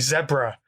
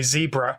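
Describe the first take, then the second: First: It is said in a British accent. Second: It is said in an American accent.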